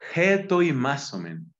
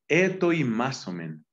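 First: The word starts with an h sound. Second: The word starts with a plain vowel. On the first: The speaker calls it right. "porque tiene espíritu fuerte" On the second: The speaker calls it wrong. "me falta pronunciarlo bien"

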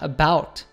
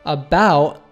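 First: The final T is a fully released T. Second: The final T is a glottal stop. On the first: The speaker calls it wrong. "not about" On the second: The speaker calls it right. "the T at the end of about is a glottal T"

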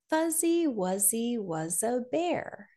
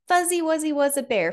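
First: It is said at a slower pace. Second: It is said at a faster pace.

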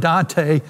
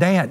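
First: The name is said with two syllables. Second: The name is said with one syllable. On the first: This is the original Italian poet's name. The speaker calls it right. "It's really Dante, the Italian poet" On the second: This is how the locals say the town's name. The speaker calls it wrong. "but they called it Dant"

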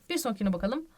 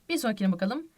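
No difference in how they are said.

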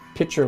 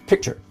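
First: It sounds like pitcher, with no k sound. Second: A clear k sound comes before the ch. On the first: The speaker calls it wrong. "I'm saying picture like a pitcher of water" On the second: The speaker calls it right. "The correct pronunciation of that word is picture"

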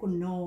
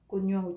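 First: The second syllable begins with a plain 'n' sound. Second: The second syllable begins with a 'ny' sound. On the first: The speaker calls it wrong. "chứ phải cùn nồ nha" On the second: The speaker calls it right. "người ta đọc như cùn nhồ"

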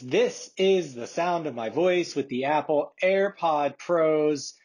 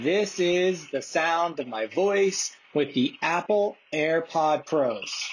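First: The voice is heard without background noise. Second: The voice is heard with background noise.

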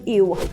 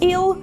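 First: The word ends with a w-like sound. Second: The word ends with a clear l sound. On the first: "«л», який замінюється на «в»" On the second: "замість"

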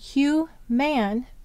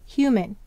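First: The second syllable has a full 'a' vowel, as in 'man'. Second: The second syllable has a reduced schwa vowel. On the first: The word is sounded out to help with spelling. "we'll say to spell again" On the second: The word is said the way people normally say it. "But what do we usually say?"

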